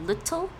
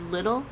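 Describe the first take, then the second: First: The middle t is pronounced as a clear t. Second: The middle t is replaced by a glottal stop. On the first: "instead of little" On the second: "a glottal stop"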